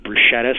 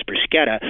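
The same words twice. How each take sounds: First: Bruschetta said broo-SHET-uh; anglicized pronunciation. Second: Bruschetta said broo-SKET-uh; Italian-style pronunciation. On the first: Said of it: "some people pronounce it bruschetta". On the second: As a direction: say bruschetta with a hard sk in the middle. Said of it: "as it would be in Italian". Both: Shown as a demonstration.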